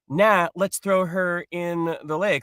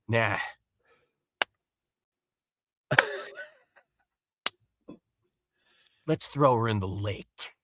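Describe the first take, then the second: First: It is said plainly and simply. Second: It is said in an overdone, dramatic way.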